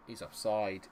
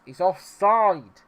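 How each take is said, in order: First: Said in the usual way. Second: High, slow, drawn-out shout; shouted offside appeal; loud protest. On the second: Real, not acted. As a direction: yell it indignantly, stretching OFFSIDE. Repeats offside call, now shouting.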